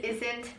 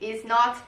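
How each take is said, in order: First: It is contracted into one word. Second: It is said as two separate words. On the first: "all the contractions" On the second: "you can just separate them"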